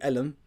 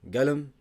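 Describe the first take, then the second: First: The word begins with a glottal stop. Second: The word begins with a hard g sound. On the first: This is the Egyptian dialect form. "qaf is a. It's like hamza" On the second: This is the Saudi dialect form. "the qaf it changes to a g"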